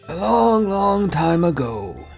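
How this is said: It is said in a put-on storyteller voice.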